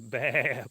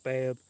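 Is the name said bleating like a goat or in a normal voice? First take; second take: bleating; normal. First: The name is bleated like a goat or sheep. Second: The name is said in a normal voice. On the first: "Or you could say it like a goat too, like a sheep or something" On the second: "I'm guessing it's Babb"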